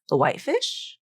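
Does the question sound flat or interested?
interested. It rises with lively, interested intonation. She is open to eating the fish. "maybe would have asked with maybe different intonation"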